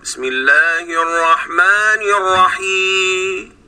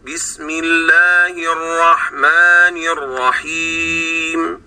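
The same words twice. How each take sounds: First: الرحيم with the final meem dropped, slow; swallowed meem. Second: الرحيم ending on a clear, moderate meem, slow; correct recitation. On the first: Teacher demonstrating the wrong, meem-less ending. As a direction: recite slowly but lose the meem in الرحيم. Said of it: "يعني ما أقولش". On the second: Teacher showing the balanced correct basmala. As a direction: recite slowly with a clean, measured meem. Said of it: "إنما بينهما". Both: Shown as a demonstration.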